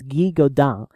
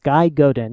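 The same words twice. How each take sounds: First: The name is said with a French pronunciation. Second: The name is said with an English pronunciation. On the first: "If it's pronounced the French way" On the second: "If it's pronounced like English"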